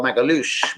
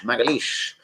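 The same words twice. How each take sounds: First: "Magalhaes" ending in an "oosh" sound; name pronunciation. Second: "Magalhaes" ending in an "eesh" sound; corrected name pronunciation. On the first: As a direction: say "Magalhaes" as mag-a-LOOSH. Says the name two ways. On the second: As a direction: say "Magalhaes" as mag-a-LEESH, softer. Corrects the name's last vowel. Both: Real, not acted.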